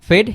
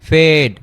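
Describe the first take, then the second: First: The vowel is short and quick. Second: The vowel is drawn out and slow. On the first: The speaker calls it right. "Just একটু fast হবে" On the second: The speaker calls it wrong. "আমরা এভাবে বলবো না যে ... একটু টেনে বলবো না"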